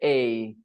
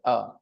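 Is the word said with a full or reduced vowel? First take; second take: full; reduced. First: The word is a full, stressed ay sound. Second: The word is a short, weak uh sound. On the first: "when you want to stress it, then you'll say a" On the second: "when you say it in a sentence, you say uh all the time"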